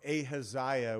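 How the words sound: The name is said in an American way.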